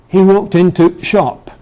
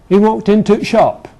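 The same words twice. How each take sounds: No difference in how they are said.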